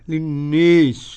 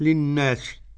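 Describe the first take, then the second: First: The long vowel leans strongly toward an 'ee' sound. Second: The long vowel is a fully open 'aa' sound. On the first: "بالإمالة للنيس، إمالة كبرى" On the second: "بالفتح للناس"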